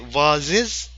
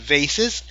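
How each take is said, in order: First: It is said in a British accent. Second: It is said in an American accent. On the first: "British people say vases" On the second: "This is the American pronunciation"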